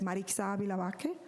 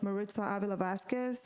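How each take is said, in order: First: The name is said with a Spanish accent. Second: The name is said with an English accent. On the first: "If you want to use a Spanish accent" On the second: "depending on what kind of accent you want to use"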